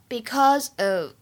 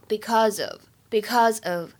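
First: The two words are said separately. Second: The two words are linked together.

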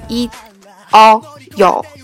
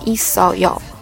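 First: The syllables are said without carrying the consonant over. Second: The final consonant is carried into the next syllable. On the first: "本来这个ida 就变成了一凹有" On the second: "就把收音放到后面去连读，就变成了一扫有"

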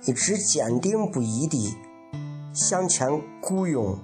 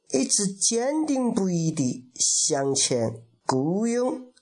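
First: It is spoken in a Shaanxi dialect accent. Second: It is spoken in a Sichuan dialect accent. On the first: "这是陕西话。" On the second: "我还会稍微的会说一点那个四川话"

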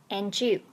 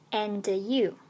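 First: The d and y merge into a j sound. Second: The d and y stay separate, unlinked. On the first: The speaker calls it right. "而连读and you，也就是变成了j 那个音" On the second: The speaker calls it wrong. "不读作and you"

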